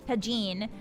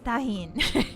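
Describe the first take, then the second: First: The word is said with an American English pronunciation. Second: The word is said with a Spanish pronunciation. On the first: "If you're American, yeehaw, you pronounce it Tajin" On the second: "if you speak Spanish, it's Tajin"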